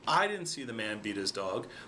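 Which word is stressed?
I. The stress is on "I".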